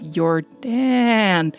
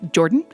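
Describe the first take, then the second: First: The double A vowel is drawn out. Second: It sounds like the American name Jordan. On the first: "emphasizing the double A there" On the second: "as in the Canadian or American version of it"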